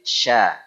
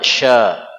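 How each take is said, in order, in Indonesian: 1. Bunyi sh itu tipis dan ringan. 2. Bunyi sh itu tebal dan berat. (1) "yang benar huruf shin itu tipis" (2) "bukan sya"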